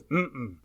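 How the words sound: A two-part closed-mouth hum that sounds refusing. The answer is no. "No is mm-mm"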